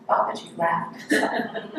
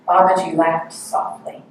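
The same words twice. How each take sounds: First: Hushed, breathy, amused; teacher lingering on a tender line, whispered; soft whisper with a laugh. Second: Said in the usual way. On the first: Shown as a demonstration. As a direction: savour the words quietly. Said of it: "What would that sound like?". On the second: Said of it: "That's one thing I love to meditate on".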